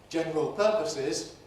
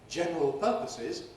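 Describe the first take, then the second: Both takes have the same delivery.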